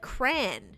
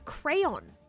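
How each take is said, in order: First: The word is clipped, with sounds dropped. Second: The word is said in full, nothing dropped. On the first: The speaker calls it wrong. "Where are the other, other letters going if you're pronouncing a crayon like cran?" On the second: The speaker calls it right. "Because it's a crayon. It's not. It's a crayon"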